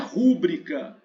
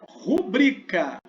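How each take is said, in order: First: The stress is on the first syllable. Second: The stress is on the second syllable. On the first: The speaker calls it wrong. "não é rúbrica" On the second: The speaker calls it right. "A sílaba tônica é o bri, é uma paroxítona"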